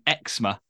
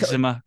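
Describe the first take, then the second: First: It is said the British way, starting 'ex'. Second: It is said the American way, starting 'egg'.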